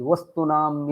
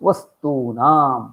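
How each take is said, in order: First: The vowel before nam is short. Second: The vowel before nam is long. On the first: The speaker calls it wrong. "केषाञ्चित् भ्रमः भवति" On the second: The speaker calls it right. "दीर्घस्य प्रयोगः करणीयः"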